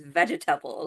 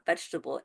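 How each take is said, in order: First: The word is said with every syllable pronounced. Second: The word is said with a syllable dropped. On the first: "they pronounce like every syllable" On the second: "it's not vegetable"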